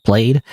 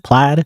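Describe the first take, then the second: First: Plaid said to rhyme with "played"; "Plaid" with a long a. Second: Plaid said to rhyme with "glad"; "Plaid" with a short a. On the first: Canadian streamer testing how Plaid is pronounced, long a. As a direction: try Plaid as "playd". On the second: Canadian streamer testing how Plaid is pronounced, short a. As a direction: try Plaid as "plad". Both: Shown as a demonstration. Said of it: "how do you pronounce it?".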